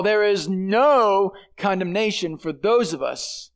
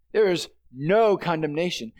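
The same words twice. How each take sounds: First: No held and leaned on, slow delivery; slow down and weight the word no; stress on no. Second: Said in the usual way. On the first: Shown as a demonstration. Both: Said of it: "That word "no" is emphatic".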